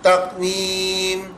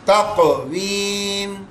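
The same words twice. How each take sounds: First: The q sound is closed with no echo. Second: The q sound bounces with a slight echo. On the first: "तकवीम तकवीम यूं है" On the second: "फिर echo sound बना देंगे"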